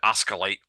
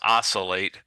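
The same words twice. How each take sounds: First: The C is said as a hard K sound. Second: The C is said as a soft S sound. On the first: The speaker calls it wrong. "with a hard sounding C" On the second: The speaker calls it right. "It's oscillate"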